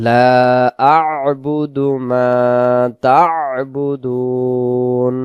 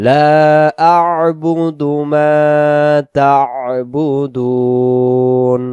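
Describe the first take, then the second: The two takes are said the same way.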